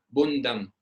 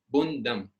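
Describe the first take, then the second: No difference in how they are said.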